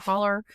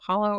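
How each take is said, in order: First: The word ends with an 'er' vowel sound. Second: The word ends with an 'oh' vowel sound. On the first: "or holler. ... You guys say holler" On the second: "I don't know if y'all pronounce it hollow"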